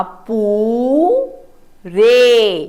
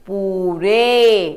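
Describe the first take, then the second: First: पू-रे pulled apart, पू held long; very slow syllables. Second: Said in the usual way. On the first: Shown as a demonstration. Teacher to children, sounding out पूरे very slowly. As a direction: draw out पू then रे. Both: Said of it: "प को ऊ की मात्रा".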